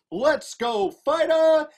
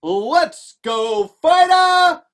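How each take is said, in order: First: Said in the usual way. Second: Loud rallying shout, rising higher; crowd cheer. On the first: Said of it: "I'm gonna say". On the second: Acted. Crowd started to cheer, loud shout. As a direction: bellow it to get the crowd going. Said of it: "The crowd started to cheer".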